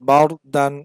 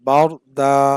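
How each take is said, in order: First: The word ends with an n sound. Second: The word ends with a long a vowel. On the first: The reader continues without stopping here. "বাউর দান বানান করলে এই উচ্চারণটা হয়" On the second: The reader stops at this word. "এক আলিফ টানতে হবে এখানে"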